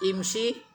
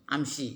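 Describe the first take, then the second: First: The word begins with an 'i' vowel. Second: The word begins with an 'a' vowel. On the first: This is the usual standard form. "biasanya kan a, eh, i di depan" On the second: This is how people in Mecca say it. "Kalau mereka malah diputar a di depan"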